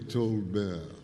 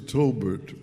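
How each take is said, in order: First: The name is pronounced the French way. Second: The name is pronounced the plain English way.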